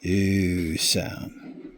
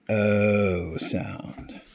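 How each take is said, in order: First: Oo held long as in "food"; long oo sound. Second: O held very long as "ohhh"; long O sound. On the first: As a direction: draw out oo, then "sound". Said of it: "This would be the". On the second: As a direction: draw out O slowly, then "sound". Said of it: "this would be the O sound". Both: Shown as a demonstration.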